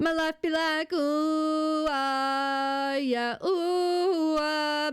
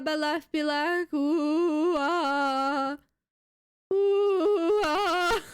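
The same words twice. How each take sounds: First: Light squeaky voice cracks; voice cracking. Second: Slower take, cracks pushed higher and louder; louder voice cracking. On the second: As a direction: really let the voice break on ooh. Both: Pretend. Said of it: "it's kind of fun to make your voice crack".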